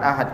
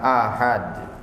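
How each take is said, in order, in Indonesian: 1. Kata ini diucapkan dengan vokal pendek. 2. Kata ini diucapkan dengan vokal panjang. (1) "Bukan ahad. Kalau ahad begini kesannya nama hari" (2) "kalau mau ditambahi huruf A-nya double biar dibacanya lebih tepat"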